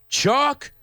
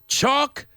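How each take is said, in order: The two takes are said the same way.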